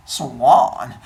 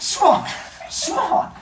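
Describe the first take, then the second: First: Low, loud, drawn-out swan call; suave swan. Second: High, squawked bird call; pushy swan. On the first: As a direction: honk it low and smooth. Swan sidles up to Leto. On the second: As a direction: honk the word like a swan. Swan knocking others aside. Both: Retold or imitated.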